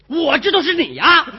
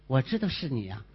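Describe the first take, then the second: First: It is said at a higher pitch, changed mood. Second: It is said at a lower pitch, plain mood.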